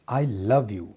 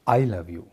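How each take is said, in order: First: The stress falls on the word love. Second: The stress falls on the word I. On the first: The feeling is love rather than hate. "आई don't hate you" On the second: It is this person who loves, whatever others feel. "अगर मैं आई पर emphasise करता हूँ"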